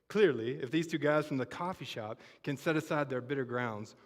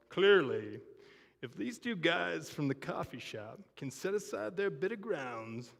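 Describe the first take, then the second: First: It is read plainly without long pauses. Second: It is read dramatically with long pauses. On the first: "I'll read that without the" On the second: "in his poignant T V reporter voice with all the dramatic pauses"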